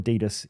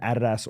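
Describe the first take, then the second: First: It is said the American way. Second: It is said the speaker's non-American way.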